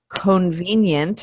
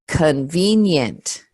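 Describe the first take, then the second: First: The first vowel is a full o sound. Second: The first vowel is a reduced uh sound. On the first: The speaker calls it wrong. "instead of con convenient or something like that" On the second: The speaker calls it right. "this o becomes an uh"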